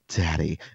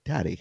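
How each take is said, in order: First: It is said in a loaded, suggestive way. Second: It is said in a plain, ordinary way.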